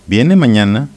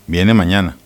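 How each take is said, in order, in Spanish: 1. La voz sube al final. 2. La voz baja al final. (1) "con la entonación ascendente" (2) "con la entonación final descendente"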